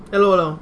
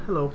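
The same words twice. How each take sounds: First: Louder radio-host hello; Howard Stern greeting. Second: Said in the usual way. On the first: Retold or imitated. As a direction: boom it out like a shock jock. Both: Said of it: "I listen to a lot of Howard Stern".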